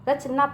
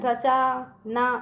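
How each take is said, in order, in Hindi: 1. 'ch' ध्वनि के बाद कोई स्वर नहीं आता। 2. 'ch' ध्वनि के बाद दीर्घ 'aa' स्वर आता है। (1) "रचना पढ़ते हैं" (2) "रचा ना इसका पढ़ेंगे नहीं"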